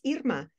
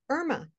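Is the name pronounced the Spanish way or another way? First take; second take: Spanish; other. First: The name is pronounced the Spanish way. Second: The name is pronounced in a non-Spanish way. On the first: This is how the speaker's own name is really said. The speaker calls it right. "which is the pronunciation not just in Spanish" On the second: This is how people reading the name tend to say it. The speaker calls it wrong. "When people see my name in writing, I-R-M-A, they often say Irma"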